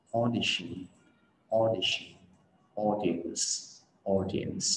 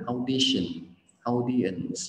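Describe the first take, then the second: First: "audition", "audience" opening with rounded "aw"; correct o vowel. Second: "audition", "audience" opening with "ao"; wrong au vowel. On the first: Teacher drilling the correct vowel, rounded "aw" opening. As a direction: round the lips, one pure "o" to start. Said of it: "người ta thường đọc là âm o". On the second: Teacher showing Vietnamese learners' habit, "au" opening. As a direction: start both words with Vietnamese "au". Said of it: "mình rất là hay đọc là au". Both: Shown as a demonstration.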